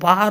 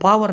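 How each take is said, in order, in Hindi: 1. शब्द के बीच में कोई w की ध्वनि सुनाई नहीं देती। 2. शब्द के बीच में w की ध्वनि सुनाई देती है। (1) "वो पार होता है" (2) "वह वो पावर नहीं होती"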